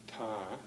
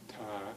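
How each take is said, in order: Both takes have the same delivery.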